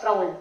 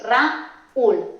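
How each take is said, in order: First: "Raúl" run together as one syllable, raul; diptongo incorrecto. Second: "Raúl" split into two syllables, ra, úl; hiato marcado. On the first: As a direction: say "Raúl" wrongly as a single glided syllable. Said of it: "al pronunciarlo no haríamos Raúl". ("Raúl" en una sola sílaba, como diptongo) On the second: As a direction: say "Raúl" slowly with a break before the stressed úl. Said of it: "sino haríamos Raúl". ("Raúl" en dos sílabas separadas: ra, úl) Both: Shown as a demonstration.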